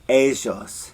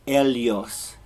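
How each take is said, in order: First: The ll is said in an Argentine accent. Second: The ll is said in a Spain accent. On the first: "in Argentina, they say ellos" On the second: "in Spain, it would be ellos"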